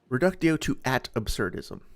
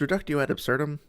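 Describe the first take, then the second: First: It is said as 'reductio to at absurdism'. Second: It is said as 'reductio ad absurdum'. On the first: The speaker calls it wrong. "I'm sorry for misleading you" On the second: The speaker calls it right. "It's not that hard to get that right"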